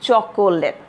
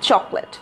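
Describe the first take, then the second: First: The middle vowel is pronounced, giving three syllables. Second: The middle vowel is dropped, giving two syllables. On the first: The speaker calls it wrong. "Many of you pronounce it as chocolate, which is completely wrong" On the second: The speaker calls it right. "যদিও এখানে একটা o আছে, but when we are going to pronounce it, we are not going to use that"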